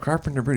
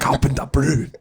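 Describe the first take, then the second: First: The name is said with an English accent. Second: The name is said with a French accent. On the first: "that's not how you say it" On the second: "like with a French accent"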